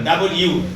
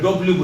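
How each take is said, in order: First: The letter name is said fully as 'double you'. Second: The letter name is clipped to 'dub-lyoo'. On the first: The speaker calls it right. "ডাবল ইউ বলেন" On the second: The speaker calls it wrong. "আমরা ডব্লিউ বলি, এটা ভুল।"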